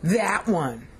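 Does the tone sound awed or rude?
rude. It is said in a rude, dismissive tone. The person is being debased. "Well, that's not nice"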